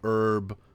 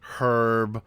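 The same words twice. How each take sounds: First: It is said with an American pronunciation. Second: It is said with a British pronunciation. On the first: The speaker calls it right. "in America, we say herb" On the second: The speaker calls it wrong. "we don't say herb"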